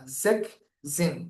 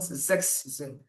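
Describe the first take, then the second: First: There is no s sound before zehn. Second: There is an s sound before zehn. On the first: The speaker calls it right. "We say zek, no x" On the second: The speaker calls it wrong. "not zex zin"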